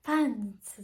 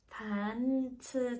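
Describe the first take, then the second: First: Pitch drops partway through the word. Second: Pitch starts low, rises, then stays level. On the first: "下がることがあるのが起伏型" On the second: "最初が低くて、その後がちょっと高くって平坦なやつ"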